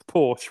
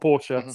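First: The name is pronounced the English way. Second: The name is pronounced the German way. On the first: The speaker calls it wrong. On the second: The speaker calls it right.

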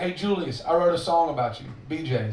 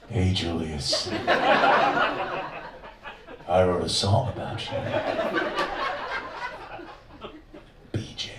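First: It is said in a plain, normal voice. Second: It is said in a put-on creepy voice.

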